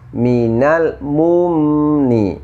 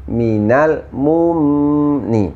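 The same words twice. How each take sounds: No difference in how they are said.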